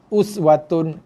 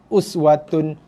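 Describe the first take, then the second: The two takes are said the same way.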